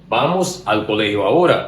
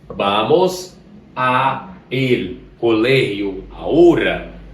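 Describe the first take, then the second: First: The words a and el merge into al. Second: The words a and el are said separately. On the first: The speaker calls it right. "com a contração, a fluência, a cadência da leitura melhorou" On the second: The speaker calls it wrong. "Pense eu dizer esta frase da seguinte maneira"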